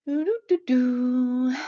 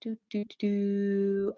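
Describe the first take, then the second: First: Slow idle doo-doo hum; humming noises. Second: Slow hum, softer, trailing off; softer humming noises. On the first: Author scrolling through chat comments, idly humming. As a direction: hum absently while scrolling. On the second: Author still scrolling comments, humming quietly to herself. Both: Real, not acted. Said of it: "I'm making humming noises".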